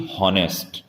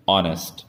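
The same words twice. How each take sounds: First: हॉनेस्ट with an audible H at the start; H wrongly sounded. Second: ऑनेस्ट said with no H, starting on the vowel; silent H. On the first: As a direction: mispronounce it as हॉनेस्ट, breathing out the H. (हॉनेस्ट, शुरू में 'ह' बोलकर) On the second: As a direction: say ऑनेस्ट with the H dropped. (ऑनेस्ट, बिना 'ह' की आवाज़ के) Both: Shown as a demonstration. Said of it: "ना कि हॉनेस्ट".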